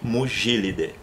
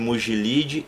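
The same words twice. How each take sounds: First: The stress is on the third-to-last syllable. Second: The stress is on the second-to-last syllable. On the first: The speaker calls it right. "Eu falo" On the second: The speaker calls it wrong. "eu não falo em latim"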